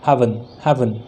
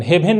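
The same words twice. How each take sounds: First: "हेवन" low and falling, as "HAV-un"; correct pronunciation. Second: "हेवन" as "hay-ven", both vowels full; wrong pronunciation. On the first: Teacher correcting the word for students, correct pronunciation. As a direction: say "हेवन" with open first vowel, schwa in the second. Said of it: "हेवन नहीं". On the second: Teacher warning students off a reading, wrong pronunciation. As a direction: say "हेवन" with a long closed e. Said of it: "नहीं". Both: Shown as a demonstration.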